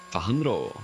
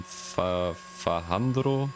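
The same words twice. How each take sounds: First: Said in the usual way. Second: Fajandro said slowly, sounding out each part with a questioning rise; haltingly trying out Fajandro as fa-HAN-dro; unsure pronunciation. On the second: Real, not acted. Streamer greets a viewer, trying their name unsure. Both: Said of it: "I don't know how to pronounce your name".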